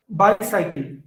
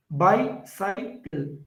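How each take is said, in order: First: "bicycle" with bi stressed, the rest falling away; stress on first syllable. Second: "bicycle" slowly split into bi, cy, cle; syllable by syllable. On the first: Teacher modelling a dactyl, first syllable of "bicycle" stressed. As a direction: hit the start of "bicycle". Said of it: "only the initial one is a stressed". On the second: Teacher counting syllables for students, "bicycle" slowly broken into three. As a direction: break "bicycle" into three drawn-out parts. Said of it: "So there are three syllables". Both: Shown as a demonstration.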